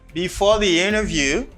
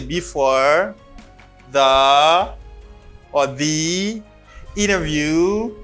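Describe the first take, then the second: First: It flows linked, pausing only after the phrase. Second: It breaks up with a pause inside the phrase. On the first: The speaker calls it right. "You say before the interview, comma" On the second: The speaker calls it wrong. "you don't say before the or the interview. No, you don't read like that"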